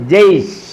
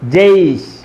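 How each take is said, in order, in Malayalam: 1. വാക്ക് അവസാനിക്കുന്നത് ശുദ്ധ വ്യഞ്ജനത്തിലാണ്. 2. വാക്ക് അവസാനിക്കുന്നത് ശുദ്ധ വ്യഞ്ജനത്തിലാണ്.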